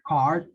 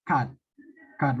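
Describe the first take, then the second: First: "card" with the R clearly sounded; "card" pronounced with an audible R. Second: "cut" for card, with no R, Malaysian-style; R-less Malay-accented "cut"; Malaysian pronunciation. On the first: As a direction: say "card" with a full R before the D. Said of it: "didn't say card". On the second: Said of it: "British, but it's more Melayu". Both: Shown as a demonstration.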